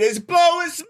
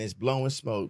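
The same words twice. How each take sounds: First: The phrase is shouted at a very loud volume. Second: The phrase is said at a normal, quieter volume. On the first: The speaker calls it right. "That was loud as shit" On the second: The speaker calls it wrong. "Did I say that right?"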